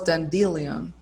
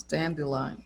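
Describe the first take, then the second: First: Dandelion misread as dan-DEE-lee-on; mistaken pronunciation. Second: Said in the usual way. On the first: Shown as a demonstration. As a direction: stress the middle of dandelion, as 'dan-DEE-lee-on'. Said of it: "I thought it was dandelion". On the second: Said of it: "it's so different to pronounce".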